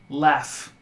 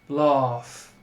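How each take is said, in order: First: The vowel is a front 'ah' like cat. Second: The vowel is a rounded 'aw' sound. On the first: This is the common standard American form. "In my dialect, that vowel sound is an ah. It's an ah, similar to cat" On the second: This is how some other dialects say it. "in other dialects, that could be an aw"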